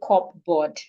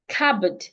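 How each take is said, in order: First: The p sound is pronounced. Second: The p sound is left out. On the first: The speaker calls it wrong. "Do not say cupboard" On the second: The speaker calls it right. "The P is silent as well"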